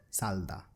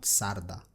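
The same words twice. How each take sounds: First: Salda with a clear L; correct pronunciation. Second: Sarda with an R sound; wrong pronunciation. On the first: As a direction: say Salda with L in the middle. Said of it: "it will be Salda". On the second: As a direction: say Sarda, R in the middle. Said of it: "not Sarda". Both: Shown as a demonstration.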